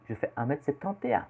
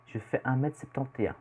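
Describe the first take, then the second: No difference in how they are said.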